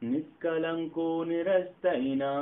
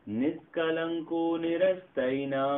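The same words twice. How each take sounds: The two takes are said the same way.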